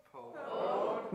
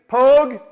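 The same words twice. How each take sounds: First: Said in the usual way. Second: "Pogue" called out loud and high, said "pohg"; Gaelic demo. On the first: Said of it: "repeat after me". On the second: Shown as a demonstration. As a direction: teach "Pogue" as one loud long "pohg". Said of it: "Everybody repeat after me".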